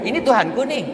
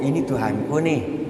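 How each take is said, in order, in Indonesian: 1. Terdengar mengejek dan menantang. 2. Terdengar bingung dan penasaran. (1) "bukan bertanya, bukan ragu, tapi menjatuhkan kepada para kaumnya" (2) "Itu orang yang bingung kan begitu"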